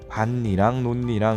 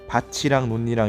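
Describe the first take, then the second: First: The first word's final consonant does not become ch. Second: The first word's final consonant becomes a ch sound. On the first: The speaker calls it right. "이렇게 발음합니다. 얘는 구개음화가 일어나지 않았다는 거죠" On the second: The speaker calls it wrong. "이렇게 발음하지 않고요"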